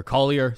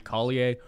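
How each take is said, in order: First: Said in the usual way. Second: French-style Collier ending in "ay"; French accent. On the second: Real, not acted. Host slipping into French for a fighter's name, French accent. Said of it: "his French accent there".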